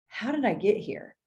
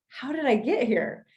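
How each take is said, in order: First: It sounds dismayed and regretful. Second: It sounds amazed and delighted.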